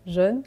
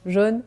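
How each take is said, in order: Both takes have the same delivery.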